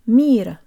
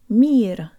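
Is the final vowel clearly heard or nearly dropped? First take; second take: nearly dropped; nearly dropped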